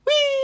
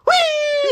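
First: High squealing whee; gleeful whee. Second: High squealing whee, louder. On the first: Spinning on the swing ride, a high mock-gleeful whee. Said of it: "I would say it louder". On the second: Spinning again on the swing ride, a louder, high mock-gleeful whee. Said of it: "I would say it louder, louder". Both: Retold or imitated.

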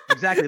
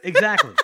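First: Said in the usual way. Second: Exactly, laughed out loud and higher; laughing agreement. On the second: Real, not acted. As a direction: burst out laughing as you agree.

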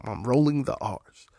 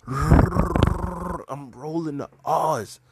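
First: Said in the usual way. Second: Slow, with the R's in R's rolled hard. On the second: Shown as a demonstration. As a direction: trill every R in "I'm rolling the R's" slowly.

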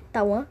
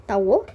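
First: Said in the usual way. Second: Tauô read as written, ending in a closed o; misread name. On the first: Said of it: "Não tava escrito Tauan". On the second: Shown as a demonstration. Reader sounding out the misspelt name Tauô, ending in o. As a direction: say Tauô with a final o, not an. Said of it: "tá escrito Tauô aqui".

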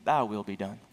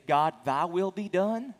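First: A hint of God's voice, much lower; God's verdict. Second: Slow, lightly voiced surrender to God; a person's surrender. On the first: Preacher voicing God's answer to the sinner, low and grave. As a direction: drop the pitch low as God pronouncing it. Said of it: "or God will say". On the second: Preacher quoting a person yielding to God, slow and lightly voiced. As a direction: give in to God, unhurried. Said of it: "you'll either say".

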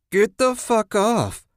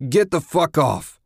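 First: High, drawn-out mocking voice; mocked. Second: Loud, raised-pitch furious bellow. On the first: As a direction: mimic his shout slowly in a high, taunting pitch. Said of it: "a voice mocked". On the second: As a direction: bellow it at the attackers. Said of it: "he bellowed". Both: A narrator's reading.

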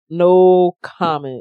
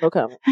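First: Slow, loud, drawn-out refusal; emphatic refusal. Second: Said in the usual way. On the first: Real, not acted. Refusing to answer the fighting back charge, slow emphatic. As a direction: stretch both words out firmly and louder.

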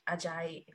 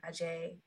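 First: Ajay ending in an "eye" sound; first guessed pronunciation. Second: Ajay ending in an "ay" sound; second guessed pronunciation. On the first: Host guessing at a writer's surname, Ajay said "ah-ZHAI". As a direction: say Ajay as "ah-ZHAI", rhyming with sky. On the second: Host retrying a writer's surname, Ajay said "uh-ZHAY". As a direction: say Ajay as "uh-ZHAY", rhyming with day. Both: Shown as a demonstration. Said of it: "can't remember".

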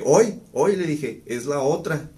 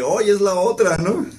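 First: Teasing joke. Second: High and loud, laughing through the joke; retelling his own tease with laughter in the voice; laughing punchline. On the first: Joking as message arrives. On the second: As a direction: deliver the punchline cracking up. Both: Retold or imitated.

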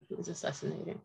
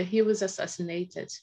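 First: Sinking to a near hush on the repeat; hushed, stunned repetition; quiet repeat. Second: Said in the usual way. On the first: Real, not acted. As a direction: let it fall away, almost to yourself. Repeating the news, softly.

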